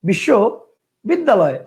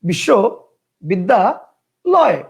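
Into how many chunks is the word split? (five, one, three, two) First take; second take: two; three. First: The word is broken into two separate chunks. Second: The word is broken into three separate chunks. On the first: "কয়টা হলো? দুইটা।" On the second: "কয়টা হলো? তিনটা।"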